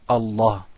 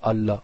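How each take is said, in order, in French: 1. Le L est lourd et plein. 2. Le L est léger et fin. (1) "on doit le gonfler" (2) "on dit pas Allah"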